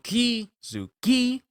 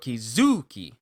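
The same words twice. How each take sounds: First: The stress is on the first syllable. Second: The stress is on the second syllable. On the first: "with a strong Ki-zuki" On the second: "with a strong Zu"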